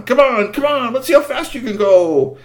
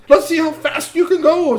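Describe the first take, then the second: First: High, loud urging of the horses; eager urging. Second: Mock teen boast. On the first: Acted. Boy urging the chariot horses to go faster, high and eager. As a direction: egg the team on, thrilled. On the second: Repeats the teen's urging.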